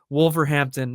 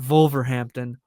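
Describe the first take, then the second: First: It is pronounced the English way. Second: It is pronounced like a German word. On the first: The speaker calls it right. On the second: The speaker calls it wrong.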